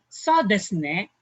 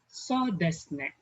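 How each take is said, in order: First: It is said in an agreeing tone. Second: It is said in a hesitant, thinking tone. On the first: The speaker agrees. "so it means you're agreeing" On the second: The speaker is still thinking. "like you're still thinking"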